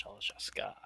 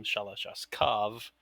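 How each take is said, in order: First: "Shalashaska" ending in an open "-ka"; quiet "Shalashaska", ending on the vowel a; pronouncing the similar name. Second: "Shalashaskov" ending in a clear "-kov"; slow "Shalashaskov", final v sounded; pronouncing the name. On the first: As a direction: say "Shalashaska" softly, with no final v. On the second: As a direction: say "Shalashaskov" slowly, closing on the v. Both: Shown as a demonstration. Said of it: "No, it's different".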